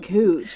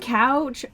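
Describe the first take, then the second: First: The vowel sounds like the one in moo. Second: The vowel sounds like the one in cow. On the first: "they want to pronounce it cooch" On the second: "saying couch"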